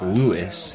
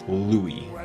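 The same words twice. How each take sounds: First: The name is read the way it is spelled. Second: The name is said differently from its spelling. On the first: The speaker calls it wrong. "It's spelt like Louis, but that's not how you pronounce it" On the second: The speaker calls it right. "It's Louis"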